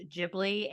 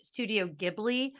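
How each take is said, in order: First: "Ghibli" said the proper way, corrected; "Ghibli" pronounced right, as the studio says it; correct pronunciation. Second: Put-on "Studio Ghibli" said the way I always said it, the old habit; "Ghibli" in my old wrong way, not the real one; wrong pronunciation. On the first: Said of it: "it's actually pronounced". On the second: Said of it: "turns out it's actually pronounced". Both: Shown as a demonstration.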